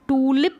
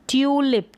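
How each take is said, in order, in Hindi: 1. पहला स्वर सादा 'oo' ध्वनि है। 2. पहला स्वर 'yoo' ध्वनि है। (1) "इसको टूलिप नहीं पढ़ेंगे" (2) "इसको पढ़ेंगे ट्यूलिप, क्योंकि यू का उच्चारण जो है यू हो रहा है"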